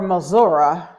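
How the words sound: It uses the southern Missouri pronunciation of the name.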